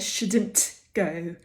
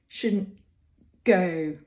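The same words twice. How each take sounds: First: The T in shouldn't is fully released. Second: The T in shouldn't is a glottal stop. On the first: The speaker calls it wrong. "you usually don't hear shouldn't go" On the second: The speaker calls it right. "we get a bit of constriction here in the throat"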